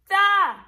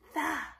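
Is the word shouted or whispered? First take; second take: shouted; whispered. First: The word is shouted loudly. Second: The word is whispered quietly.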